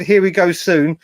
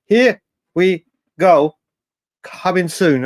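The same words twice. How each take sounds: First: Said in the usual way. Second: Slow, lightly put-on Italian accent, stretching here; mock the journalist's Italian accent, drawn out; Romano's Italian accent. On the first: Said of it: "When he said". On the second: Streamer imitating the transfer journalist's post, in a light Italian accent. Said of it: "the A sounded like part of his Italian accent".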